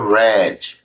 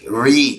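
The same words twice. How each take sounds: First: The vowel is a short 'e' sound. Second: The vowel is a long 'ee' sound. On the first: It is the past tense, read before. "Ler no passado é read ... O mesmo som ... da cor vermelha" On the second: It is the present tense, to read. "read, som de I"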